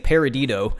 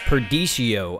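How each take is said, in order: First: The word begins with 'para' and ends 'dito'. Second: The word begins with 'per' and ends 'dishio'. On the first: The speaker calls it wrong. "I've been saying this wrong. I've been saying Paradito" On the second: The speaker calls it right. "It's Perdicio, I think"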